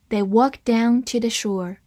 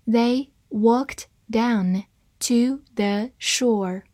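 First: Said in the usual way. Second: Slow, word by word; deliberate, separated teaching pace; slow reading. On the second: Shown as a demonstration. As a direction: space out each word for learners. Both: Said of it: "我们慢慢来读".

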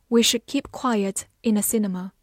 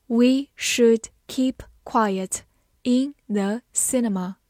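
First: Said in the usual way. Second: Slow, word by word with clear gaps; slow reading. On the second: Shown as a demonstration. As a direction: read it slowly for learners, each word set apart. (慢慢地逐词朗读) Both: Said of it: "慢慢来读".

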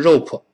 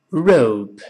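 First: ROPE as Chinese "rou-po", two syllables; mispronounced rope. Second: ROPE as one syllable with English r; correct rope. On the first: Teacher shows what not to say, ROPE as "rou-po". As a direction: say ROPE with an added "o" after the p. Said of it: "而不是rope". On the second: Teacher spells the word then models it, ROPE with English r. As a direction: model ROPE cleanly, light final p. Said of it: "绳子R O P E读成". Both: Shown as a demonstration.

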